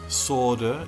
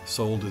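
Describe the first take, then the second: First: It has an American pronunciation. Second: It has a non-American pronunciation.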